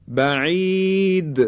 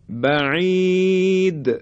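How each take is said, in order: Both takes have the same delivery.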